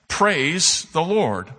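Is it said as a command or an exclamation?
command. It is said as a firm command.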